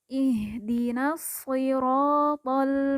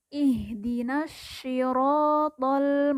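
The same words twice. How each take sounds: First: The s of siratal is a plain light s. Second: The s of siratal sounds like sh. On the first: "diucapkan mirip seperti huruf sin" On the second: "diucapkan mirip seperti huruf shin"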